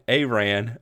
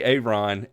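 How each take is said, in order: First: "Aran" with AY first, then RAN; corrected name pronunciation. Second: "Aaron" said as the rejected version; wrong name pronunciation. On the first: Host correcting a friend's name, "Aran" said ay-RAN. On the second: Host correcting a friend's name, "Aaron" as the mispronunciation. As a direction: say "Aaron" as the way not to say it. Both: Shown as a demonstration. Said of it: "not A-, Aaron".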